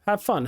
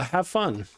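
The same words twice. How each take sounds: First: Said in the usual way. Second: Type-along robot voice. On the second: Pretend. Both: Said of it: "you have to talk like a robot".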